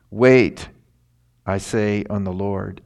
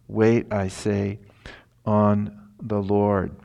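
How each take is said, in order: First: Loud punch on "Wait", then calmer; emphatic wait. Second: Slow and drawn out, "Wait" stressed gently; slow, deliberate repeat. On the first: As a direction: hit "Wait" hard and loud, the rest plain. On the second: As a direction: stretch every word of "Wait, I say, on the Lord". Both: Shown as a demonstration. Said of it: "a double emphasis here".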